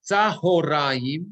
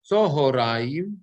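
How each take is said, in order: First: Tzahoraim with an open "a" in the first syllable, drawn out slowly. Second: Tzohoraim with an "o" in the first syllable, tzo-ho-ra-im. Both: Shown as a demonstration.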